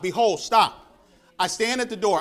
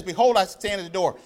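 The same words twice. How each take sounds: First: Behold, then a full stop before the rest; pause after Behold. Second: Said in the usual way. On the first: Shown as a demonstration. Preacher showing the church where to pause, Behold then a stop. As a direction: say "Behold", halt, then "I stand at the door". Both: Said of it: "kinda stop".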